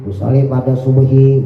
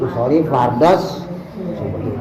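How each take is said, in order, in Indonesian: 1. Bunyi l terdengar jelas sebelum subuhi. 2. Bunyi l menyatu menjadi bunyi s ganda. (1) "itu enggak merusak sholat" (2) "khusus untuk subuh dia pakai tasdid"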